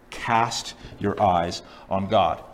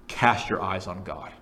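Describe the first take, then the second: First: Very slow and low, word by word; solemn, drawn-out directive; emphatic repeat. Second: Slow, low, measured counsel; weighty, unhurried directive; solemn appeal. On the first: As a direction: stretch out each word with weight. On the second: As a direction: lower the pitch and slow down. Quoted answer delivered with weight. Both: Acted.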